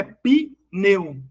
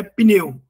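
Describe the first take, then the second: First: "pneu" wrongly split as pi... neu; two separate slow beats in "pneu", pi, then neu; wrong syllable split. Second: Said in the usual way. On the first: Shown as a demonstration. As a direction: show the mistake: "pneu" as pi... neu. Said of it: "Não é pneu". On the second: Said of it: "não pode ter sílaba só com consoante".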